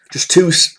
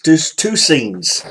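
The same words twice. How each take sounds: First: Said in the usual way. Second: "two" dragged out very slowly with weight; stress on two. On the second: Real, not acted. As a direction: spell out "just two scenes" slowly, leaning on "two". Restarts to stress the count.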